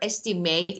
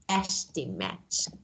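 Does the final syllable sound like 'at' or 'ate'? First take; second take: ate; at. First: The final syllable sounds like 'ate'. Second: The final syllable sounds like 'at'. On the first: It is used as a verb. "if it's verb, you should pronounce it as ate" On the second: It is used as a noun. "If it's noun, you should pronounce ate as at"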